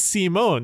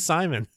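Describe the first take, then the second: First: The name is said with a Japanese-style pronunciation. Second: The name is said with an English pronunciation. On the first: The speaker calls it wrong. "they're saying Simone because they're fucking Japanese" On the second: The speaker calls it right. "It's fucking Simon"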